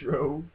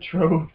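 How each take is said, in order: First: The word begins with an 'shr' sound. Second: The word begins with a 'tr' sound. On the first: The speaker calls it right. "and it's Shrove" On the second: The speaker calls it wrong. "he said Trove Tuesday"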